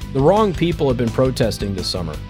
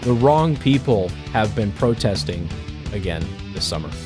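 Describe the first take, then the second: First: It is said at a normal speed. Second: It is said slowly.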